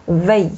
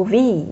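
First: "喂" as French "vé", v plus a closed e; French "vé" with a buzzing v on "喂"; French-style V. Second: "V" said as English "vee"; English-style V. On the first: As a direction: say "喂" as the French letter name "vé". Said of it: "这是错误的". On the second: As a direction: give "V" its English name, with an ee vowel. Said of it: "这英语的发音啊". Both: Shown as a demonstration.

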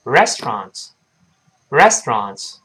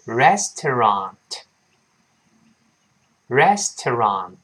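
First: "restaurant" run together as res-tronts; brisk, compressed "restaurant", middle vowel dropped; quick reading. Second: Very slow "restaurant" in three clear syllables; drawn-out teaching model of "restaurant"; slow reading. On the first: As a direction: squeeze "restaurant" into two syllables. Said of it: "读快了之后，往往会变成". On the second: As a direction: sound out "restaurant" as res-to-rant. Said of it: "先慢慢读". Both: Shown as a demonstration.

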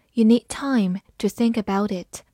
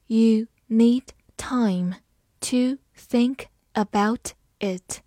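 First: Said in the usual way. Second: Slow, careful read with a hushed start; slow teacher demo. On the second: Shown as a demonstration. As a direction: read it slowly for learners. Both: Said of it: "好，慢慢来读".

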